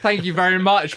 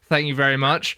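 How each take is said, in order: First: The thanks sounds warm and sincere. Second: The thanks sounds flat and insincere. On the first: The speaker calls it right. "that was supposed to sound sincere" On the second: The speaker calls it wrong. "but instead I went"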